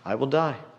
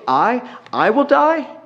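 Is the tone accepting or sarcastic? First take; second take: accepting; sarcastic. First: It is said plainly and sincerely, accepting it. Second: It is said sarcastically, mocking the idea. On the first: He truly agrees to die for tasting the honey. "Maybe he's saying it for face value" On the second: He finds the idea of his death absurd. "Or maybe it's sarcastically"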